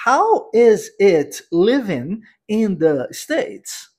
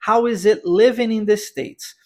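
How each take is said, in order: First: Slow, every word of "How is it living in the States?" said apart; "How is it living in the States?" spelled out slowly, the way language courses do; unnatural word-by-word English. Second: Said in the usual way. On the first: Shown as a demonstration. Teacher showing students a stiff classroom version, spoken word by word. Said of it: "Não natural". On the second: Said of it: "Repare também como nós juntamos o is com it".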